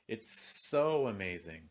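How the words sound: The stress falls on the word so. "If I stress so, it can sound like this"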